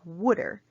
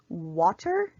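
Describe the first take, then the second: First: The middle consonant sounds like a d. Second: The middle consonant is a clear t.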